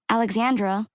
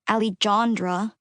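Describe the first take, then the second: First: The middle consonant is an English KS sound. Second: The middle consonant is a hard English J. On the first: "Ellis Islanded me" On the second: "the J is pronounced like an H"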